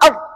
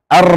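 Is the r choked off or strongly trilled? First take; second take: choked off; strongly trilled. First: The r is pressed and barely sounds. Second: The r is released with strong trilling. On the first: "Kalau terlalu ditekan nggak keluar" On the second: "terlalu dilepas banyak getaran"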